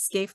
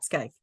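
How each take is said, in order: First: The vowel sounds like 'ay' in 'skate'. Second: The vowel sounds like 'eye' in 'sky'. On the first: The speaker calls it right. "It is Scaife" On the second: The speaker calls it wrong. "not Skyfe"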